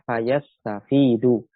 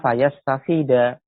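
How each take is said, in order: First: The word ends with a final u vowel. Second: The word ends with a final a vowel. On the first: The verb is in the nominative case. The speaker calls it right. "dibaca fayastafidu" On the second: The verb is in the subjunctive case. The speaker calls it wrong. "Tidak kita baca fayastafida"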